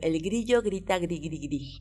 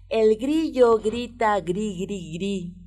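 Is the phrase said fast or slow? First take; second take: fast; slow. First: The phrase is said at a fast pace. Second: The phrase is said at a slow pace. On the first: "ahora más rápido"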